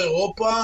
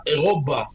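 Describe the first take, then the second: First: Said in the usual way. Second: אירובה with a clear B instead of P. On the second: Retold or imitated. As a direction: say אירובה with B, the Arabic way. (אירובה בבי״ת דגושה, כמו שהערבים אומרים) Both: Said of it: "אירובה, עם בית".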